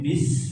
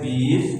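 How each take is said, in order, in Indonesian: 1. Suku katanya diucapkan pendek dan langsung. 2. Suku katanya diseret dan dipanjangkan. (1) "tapi bis langsung" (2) "tidak diseret bis"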